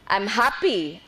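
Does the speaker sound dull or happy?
happy. It is said brightly, with cheerful energy. The speaker truly feels happy. The speaker calls it right. "say it that way"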